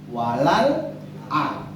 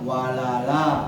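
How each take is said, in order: First: A break separates the final 'a' sound. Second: The final 'a' is joined smoothly without break. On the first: This is the common everyday reading. "Kita bacanya walal a" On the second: The vowel is moved onto the preceding letter. "Waras bacanya dinakal walala"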